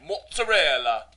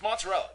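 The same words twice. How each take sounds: First: It is said with an Italian accent. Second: It is said with an American accent.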